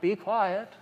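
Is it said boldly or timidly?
timidly. It is said timidly, without authority.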